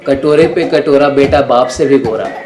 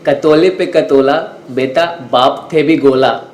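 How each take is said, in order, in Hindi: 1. शब्द साफ़ उच्चारित हैं, बिना तुतलाहट के। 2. शब्द बचपन जैसी तुतलाहट के साथ उच्चारित हैं।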